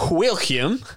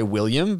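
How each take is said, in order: First: Higher, hammed-up Southern drawl on William; Southern American accent. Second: Said in the usual way. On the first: Actor improvising an American character's last word, exaggerated Southern accent. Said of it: "how does a Southerner say it?". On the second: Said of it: "I didn't know I was gonna say".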